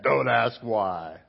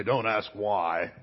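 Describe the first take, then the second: First: Slow, measured parent's rule; stern parent. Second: Slow, deliberate parent's rule; stern parent. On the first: Pastor repeating his own rule to his kids, stern and slow. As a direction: spell out the rule to the kids, slowly. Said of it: "how many times did I say that". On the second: Parent telling a child not to ask, stern and slow. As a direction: lay down the law word by word, slowly. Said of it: "did your parents say". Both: Retold or imitated.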